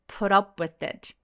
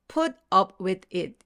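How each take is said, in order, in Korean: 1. 단어들이 하나처럼 자연스럽게 이어져요. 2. 각 단어를 따로 말해요. 연결하지 않아요. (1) "연음 때문에 어떻게 연결하셔야 되냐면" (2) "이렇게 단어를 말씀을 하세요"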